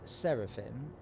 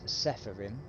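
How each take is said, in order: First: The second syllable begins with an r sound. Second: The second syllable begins with an f sound. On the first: The speaker calls it right. "but it's Seraphim because it's S E R A P H I M" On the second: The speaker calls it wrong. "so many people mispronounce Sephirim"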